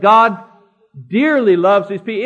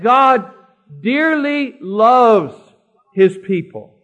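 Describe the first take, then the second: First: Said in the usual way. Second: Slow, weighty stress on "dearly loves"; emphatic restatement. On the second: Real, not acted. Preacher correcting "likes" to "dearly loves", slow and emphatic. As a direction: draw out "dearly" and "loves", each given full weight.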